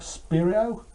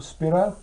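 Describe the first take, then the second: First: "Spiro" said as SPIR-ee-oh; three-syllable "Spiro", SPIR-ee-oh; unsure pronunciation. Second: "Spiro" said as SPIR-oh; two-syllable "Spiro", SPIR-oh; alternative pronunciation. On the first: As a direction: say "Spiro" with an extra ee before the final oh. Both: Shown as a demonstration. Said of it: "I don't even pronounce it".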